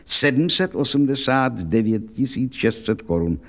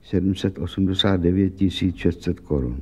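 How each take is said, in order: First: Slow and grave, each number weighed; serious. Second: Slightly low, blank, numbers repeated absently; dazed repeat. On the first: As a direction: state the sum gravely and deliberately. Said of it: "řekl vážně". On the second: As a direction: echo the sum as if stunned. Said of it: "podívala se blbě". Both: Acted.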